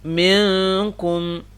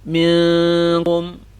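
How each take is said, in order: The two takes are said the same way.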